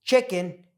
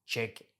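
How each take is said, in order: First: Chicken with a reduced second vowel; chicken, lazy unstressed ending; natural schwa pronunciation. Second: Chicken split into CHICK-EN with a full "e"; over-pronounced vowels. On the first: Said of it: "why we say". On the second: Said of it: "and not chicken". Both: Shown as a demonstration.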